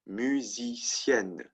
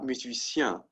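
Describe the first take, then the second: First: The word ends in a clear n sound. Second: The word ends in a nasal vowel. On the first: The speaker calls it right. "this one is pronounced musicienne" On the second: The speaker calls it wrong. "Not musicien"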